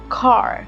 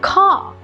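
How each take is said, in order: First: The final R is clearly pronounced. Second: The final R is dropped. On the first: "the R is very well pronounced" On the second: "they love to drop their R"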